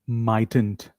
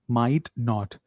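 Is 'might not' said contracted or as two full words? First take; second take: contracted; full. First: It is said as one contracted word. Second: It is said as two separate full words.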